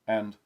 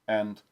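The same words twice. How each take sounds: The two takes are said the same way.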